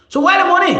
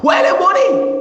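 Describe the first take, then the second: First: Raised, pressing demand; demanding question. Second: Shouting demand. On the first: Demanding where the money went. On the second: Asking the Liberian people, an angry shout. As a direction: yell the demand at them. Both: Real, not acted.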